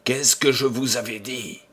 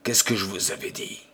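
First: Said in the usual way. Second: Softer, quick murmured repeat; hushed repeat. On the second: A narrator's reading. Makoko insisting to friends, hushed and quick. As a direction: mutter it fast, uneasy. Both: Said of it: "Et il ajouta".

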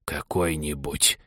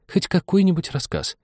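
First: Low, slow, soft huffy echo; indignant wheeze. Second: High-pitched pleading for a story; very humble. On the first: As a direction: snuffle it back slowly, offended. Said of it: "возмущённо просопел Соня". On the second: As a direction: beg meekly in a high voice. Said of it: "очень смиренно". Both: A narrator's reading.

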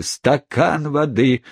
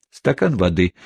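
First: Slow, higher, furious echo; mock the request in a rage; furious brother throwing Pickwick's words back; enraged outcry. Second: Kind request. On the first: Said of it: "вскричал взбешённый Уорд". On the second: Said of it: "попросил добрейший мистер Пиквик". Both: A narrator's reading.

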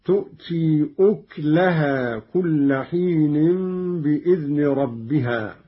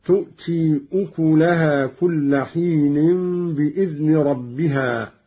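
First: أكلها recited as uklahā with silent kaf; أكلها with sukun on kaf, uklahā; Qalun reading. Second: أكلها recited as ukulahā with vowel on kaf; أكلها with damma on kaf, ukulahā; silent kaf reading. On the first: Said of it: "قرأ قالون بضم الكاف هكذا". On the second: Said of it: "قرأ قالون بضم الكاف". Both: Shown as a demonstration.

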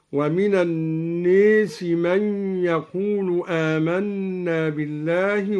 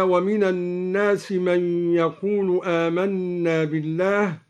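First: "الناس" said with a long "ē", like "an-nēsi"; imala. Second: Said in the usual way. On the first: Shown as a demonstration. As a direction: tilt the alif after the n in "الناس" toward "ee". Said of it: "بإمالة الألف بعد النون". (إمالة الألف بعد النون في "الناس")

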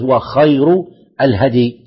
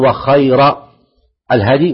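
First: "وخير" ending in a short -u, "khayru"; nominative ending. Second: "وخير" ending in a short -a, "khayra"; accusative ending. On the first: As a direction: say "وخير" with a final damma. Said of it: "ويجوز". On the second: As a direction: say "وخير" with a final fatha. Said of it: "يجوز أن تقول". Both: Shown as a demonstration.

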